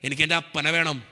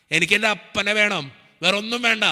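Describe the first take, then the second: First: Said in the usual way. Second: Raised, insistent plea to God; retold desperate prayer, intensifying; pleading prayer. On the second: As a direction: beg God, voice lifting with urgency. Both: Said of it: "ഞാൻ പ്രാർത്ഥിച്ചത് ഇങ്ങനെയാ".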